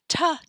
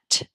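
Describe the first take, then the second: First: The consonant is followed by an added vowel. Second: The consonant is clipped short without a vowel. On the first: The speaker calls it wrong. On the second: The speaker calls it right.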